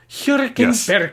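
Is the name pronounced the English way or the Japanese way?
Japanese. The name is said with Japanese pronunciation. "in Japanese it's Hirkenberg"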